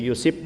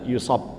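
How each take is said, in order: First: The last syllable has an 'i' vowel. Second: The last syllable has an 'a' vowel. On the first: "dibaca dengan dua cara, yaitu yusib" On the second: "dan yusab"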